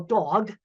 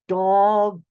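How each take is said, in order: First: It is said at a normal speed. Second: It is said slowly, each sound enunciated.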